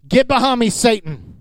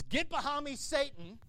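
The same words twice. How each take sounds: First: Stern, full-voiced rebuke; firm rebuke. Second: Hushed rebuke. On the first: Jesus turning on Peter, firm and stern. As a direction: put him in his place firmly. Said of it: "he looks at him and goes". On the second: Retold or imitated. Jesus answering a complaining believer, hushed and cold. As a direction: say it softly but cutting.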